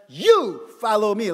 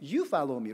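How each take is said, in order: First: The word 'you' is strongly stressed. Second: The word 'you' carries no special stress. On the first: It singles out this person, not anyone else. "if you want to emphasize that, you follow me like that" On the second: It simply tells someone to follow. "what does it mean?"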